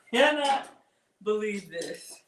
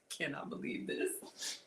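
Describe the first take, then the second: First: Exclaiming. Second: Breathy whisper of disbelief. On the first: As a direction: burst out on Cannot. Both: Real, not acted. Amazed at the dish.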